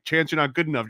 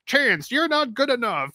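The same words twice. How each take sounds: First: Said in the usual way. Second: High, hammy cartoon villain; plotting Saturday morning cartoon villain. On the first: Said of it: "it's like". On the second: Shown as a demonstration. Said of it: "Saturday morning cartoon villain voice".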